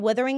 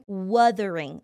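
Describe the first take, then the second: First: The first vowel sounds close to an 'i'. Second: The first vowel is a clear, harsh 'u'. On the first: The speaker calls it wrong. "it sounds a little bit more like an I sound. So it sounds like withering" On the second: The speaker calls it right. "I've been trying to pronounce the U more harshly"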